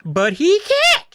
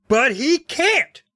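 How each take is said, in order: First: Very high, loud, slow sputter; shrill, squeaky sputter. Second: Sputtered, high and slow; high sputtering protest; high shrill sputter. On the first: Shown as a demonstration. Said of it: "I'll try that again". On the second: A narrator's reading. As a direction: splutter it out high. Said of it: "Todd sputtered in a high, shrill voice".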